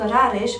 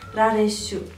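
First: The name ends in a consonant sound. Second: The name ends with an added vowel sound. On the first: "se termină într-o consoană" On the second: "Așa că Rareș va deveni Rareșu"

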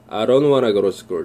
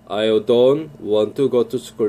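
First: It is said fast, words run together. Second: It is said slowly, each word clear.

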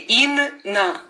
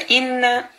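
First: The word breaks between the two n sounds. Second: The n sound is held noticeably longer. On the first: The speaker calls it wrong. "не говорим, если удвоение ин на" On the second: The speaker calls it right. "а Инна чуть-чуть как бы дольше"

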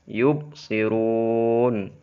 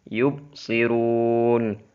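Both takes have the same delivery.

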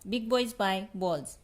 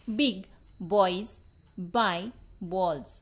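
First: The phrase is said at a fast pace. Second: The phrase is said at a normal pace.

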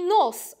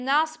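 First: The vowel sounds between 'a' and 'o'. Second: The vowel is a plain open 'a'. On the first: This is the old dialect form. "głoskę pośrednią między a i o" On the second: This is the standard form. "a nie nas"

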